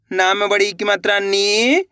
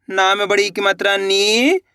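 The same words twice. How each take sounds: The two takes are said the same way.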